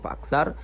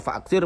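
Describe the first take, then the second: First: The final syllable has the vowel a. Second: The final syllable has the vowel i. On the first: The speaker calls it wrong. "malah dibaca faaksar" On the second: The speaker calls it right. "yang seharusnya dibaca faaksir"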